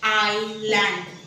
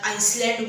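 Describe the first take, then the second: First: The l sound directly follows the first vowel. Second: An s sound follows the first vowel. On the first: The speaker calls it right. "Correct pronunciation आहे आयलँड" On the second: The speaker calls it wrong. "आइसलँड बोलतात"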